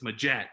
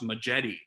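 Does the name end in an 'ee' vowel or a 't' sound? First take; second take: t sound; ee vowel. First: The name ends on a 't' sound. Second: The name ends with an extra 'ee' vowel. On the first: The speaker calls it right. "it's Majet" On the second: The speaker calls it wrong. "I had said Josh Majetti"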